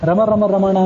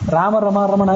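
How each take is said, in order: First: The first vowel is short. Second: The first vowel is long. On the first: This matches the researched text. The speaker calls it right. "ರಮ ರಮ ರಮಣ ಅಂತ ಅನ್ನೋದು ಹೆಚ್ಚು ಉಚಿತವಾದ್ದು" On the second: This is how the printed text has it. The speaker calls it wrong. "Print ನೋಡಿದರೆ ರಾಮ ರಮ ರಮಣ ಅಂತ ಮಾಡಿರ್ತಾರೆ"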